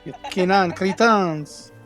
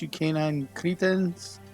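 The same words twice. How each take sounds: First: It is said in an exaggerated French accent. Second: It is said in the speaker's ordinary accent.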